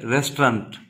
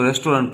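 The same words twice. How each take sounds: First: रेस्टोरेंट clipped to rest-rant, no o; रेस्टोरेंट in two syllables, rest-rahnt; correct pronunciation. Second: रेस्टोरेंट with a full o, res-to-rent; रेस्टोरेंट said the common wrong way, four syllables; wrong pronunciation. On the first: Teacher models the correct रेस्टोरेंट. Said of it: "इसकी जो actual pronunciation है वो क्या है". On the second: Teacher shows the usual wrong रेस्टोरेंट. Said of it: "इसकी जो actual pronunciation है". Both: Shown as a demonstration.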